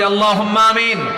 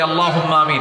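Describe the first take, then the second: First: It is said even more loudly. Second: It is said loudly.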